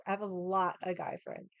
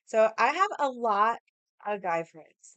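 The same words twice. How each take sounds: First: Said in the usual way. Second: Slow, loud, leaning on HAVE; emphatic first telling. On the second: Shown as a demonstration. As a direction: stress "have" hard and drag it out. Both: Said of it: "Let me reiterate this".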